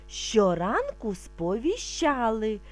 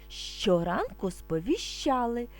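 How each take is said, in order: The two takes are said the same way.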